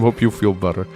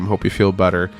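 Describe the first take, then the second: First: It is said with an imitated Latvian accent. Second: It is said in the speaker's ordinary accent.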